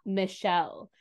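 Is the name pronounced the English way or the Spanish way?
English. The name is said with an English pronunciation. This is how the family does not say it. "and not Michelle"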